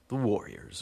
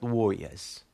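First: It is said in a plain, neutral accent. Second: It is said in a New York accent.

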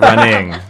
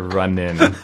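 First: The word ends with a full 'ing' sound. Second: The word ends with an 'in' sound, no g. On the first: The speaker calls it wrong. "They're not running" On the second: The speaker calls it right. "Runnin', no G"

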